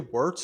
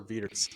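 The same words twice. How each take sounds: First: The name is said with an English pronunciation. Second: The name is said with a German pronunciation.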